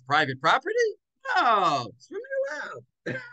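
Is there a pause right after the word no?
yes. There is a clear pause after no.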